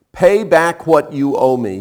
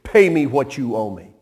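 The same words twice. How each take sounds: First: Slow, louder demand. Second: Said in the usual way. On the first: Acted. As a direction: lean on each word, demanding. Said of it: "he demanded". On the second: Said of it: "Look at the phrasing".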